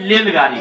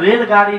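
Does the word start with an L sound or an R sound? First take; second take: L sound; R sound. First: The word begins with an L sound. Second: The word begins with an R sound. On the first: The speaker calls it wrong. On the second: The speaker calls it right.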